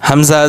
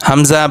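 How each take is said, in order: Both takes have the same delivery.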